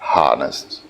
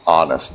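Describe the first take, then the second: First: The word starts with a breathy H sound. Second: The word starts with a vowel, no H sound. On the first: The speaker calls it wrong. "not honest" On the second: The speaker calls it right. "the H is not pronounced. it is ah, honest"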